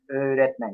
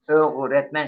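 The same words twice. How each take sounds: First: The g is pronounced as a soft g. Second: The g is pronounced as a hard g. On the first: The speaker calls it right. "yumuşak diyedir" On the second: The speaker calls it wrong. "öğretmen şeklinde okunmuyor"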